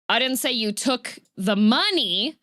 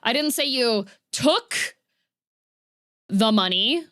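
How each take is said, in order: First: The stress falls on the word money. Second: The stress falls on the word took. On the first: Something else was taken. "I said that you took something else" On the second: A different action happened to the money. "implying that a different action happened there"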